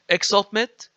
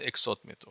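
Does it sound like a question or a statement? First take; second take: question; statement. First: It has question intonation. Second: It has statement intonation.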